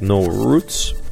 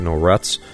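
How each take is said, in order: First: Roots is said in the standard way. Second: Roots is said in a Northwestern way.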